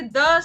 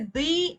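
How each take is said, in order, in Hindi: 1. यह शब्द छोटी 'uh' स्वर पर खत्म होता है। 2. यह शब्द लंबी 'ee' स्वर पर खत्म होता है। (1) "कॉन्सोनेंट्स के केस में हम द का प्रयोग करते हैं" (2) "जहां पर भी वॉवल्स की ध्वनि निकलती है पहले लेटर में, वहां पर हम दी का इस्तेमाल करते हैं"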